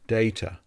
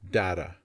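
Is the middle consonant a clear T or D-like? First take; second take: clear T; D-like. First: The middle consonant is a clear T sound. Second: The middle consonant sounds like a soft D. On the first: "This word has the A sound" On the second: "in US English, mostly, this word can also be pronounced with the A sound. And the T is more like a D sound"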